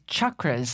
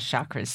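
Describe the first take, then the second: First: The word begins with a hard ch sound. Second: The word begins with a soft sh sound. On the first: "like the hard CH, like church" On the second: "everybody says chakras these days"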